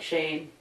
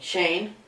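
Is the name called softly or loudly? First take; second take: softly; loudly. First: The name is called at normal volume. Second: The name is called out loudly.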